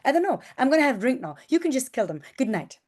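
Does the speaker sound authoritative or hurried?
hurried. It sounds rushed, breathless and smiling.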